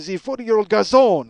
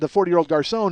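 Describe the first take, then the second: First: It is said in an exaggerated French accent. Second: It is said in his normal accent.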